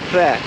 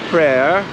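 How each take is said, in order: First: A short, strained, choked pr sound opens it. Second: It sounds like the English word prayer. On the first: The speaker calls it right. "more like Kleh, ... try to make P R sound and someone punch you in the stomach" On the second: The speaker calls it wrong. "not prayer"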